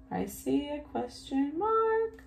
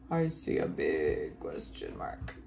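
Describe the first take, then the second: First: High sing-song. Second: Exaggerated low, rumbling big voice; very deep voice. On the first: Pretend. Teacher spotting punctuation with children, high sing-song. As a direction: sing it out high with a rising end. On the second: Teacher spotting punctuation with children, very deep voice. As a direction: drop right down as low as possible. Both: Playful repeat in two voices.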